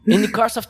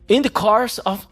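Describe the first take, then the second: First: It is spoken in an American accent. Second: It is spoken in an attempted British accent. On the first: "eu vou fazer americano aí e tal" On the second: "eu não sei fazer sotaque britânico, mas vou tentar"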